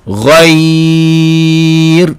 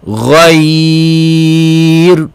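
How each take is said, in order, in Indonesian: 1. Bunyi 'ai' dibaca panjang saat berhenti. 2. Bunyi 'ai' dibaca panjang saat berhenti.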